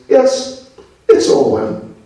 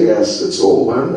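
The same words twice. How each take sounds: First: It is said in a mocking, sarcastic tone. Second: It is said in a plain, sincere tone. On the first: The speaker is mocking the idea. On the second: The speaker means what is said.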